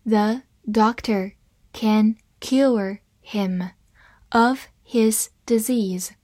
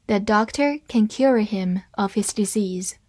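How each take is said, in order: First: Very slow, word by word; slow reading. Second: Said in the usual way. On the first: Shown as a demonstration. Teacher models the sentence for English learners, slow reading. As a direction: read slowly with a pause after each word. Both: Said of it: "好，慢慢来读".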